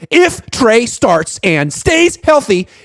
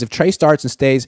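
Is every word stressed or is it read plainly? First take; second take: every word; plainly. First: Every word is said with heavy emphasis. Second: It is read in a plain, even way.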